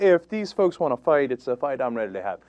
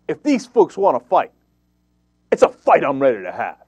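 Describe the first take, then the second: First: It is delivered flatly, as if read aloud. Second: It is delivered with forceful, lively energy. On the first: The speaker sounds like he is just reading it. The speaker calls it wrong. "he kind of read it" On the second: The speaker sounds tough and ready to fight. The speaker calls it right. "with a little bit more verve ... You know how I deliver it"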